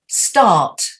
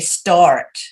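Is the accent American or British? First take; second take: British; American. First: The r after the vowel is dropped. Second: The r after the vowel is pronounced. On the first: "instead of saying the R, you just go start" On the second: "If I was American, I'd say start"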